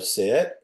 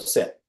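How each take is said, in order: First: It rises at the end like a question. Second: It falls at the end like a statement.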